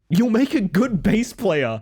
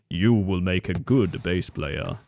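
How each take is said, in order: First: It is said in his normal voice. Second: It is said in a Darth Vader voice.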